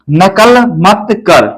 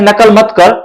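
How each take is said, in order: First: नकल मत कर said slowly, word by word; slow model sentence. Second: Said in the usual way. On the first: Shown as a demonstration. Teacher reading the sentence for pupils, slow and clear. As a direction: read नकल मत कर out slowly from the board. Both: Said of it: "यहाँ पे आप सामने देख सकते हैं".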